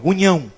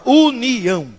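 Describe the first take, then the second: First: Wrong "união", the ni turned to nh; mispronunciation. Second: "união" stretched slowly, u-ni-ão; slow, exaggerated correct "união"; correct pronunciation. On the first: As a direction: squash "união" into "unhão". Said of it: "Não fala união". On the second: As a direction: draw out "união" syllable by syllable. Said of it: "Fala união". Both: Shown as a demonstration.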